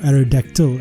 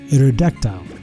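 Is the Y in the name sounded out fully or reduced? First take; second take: reduced; sounded fully. First: The Y in the name is reduced. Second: The Y in the name is sounded out fully. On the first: "as it's supposed to be pronounced" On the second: "I've always pronounced the Y in the name"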